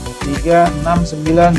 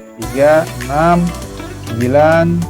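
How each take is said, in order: First: The numbers are counted at a quicker speed. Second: The numbers are counted at a plain, steady speed.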